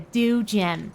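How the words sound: It is said in an American accent. "They'd call it a, a dew gem"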